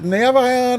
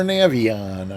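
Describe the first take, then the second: First: Navion as NAV-eye-on; Navion, middle vowel like "eye"; alternative pronunciation. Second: Navion as NAV-ee-on; Navion, middle vowel like "ee"; alternative pronunciation. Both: Shown as a demonstration. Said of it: "I never know what to say".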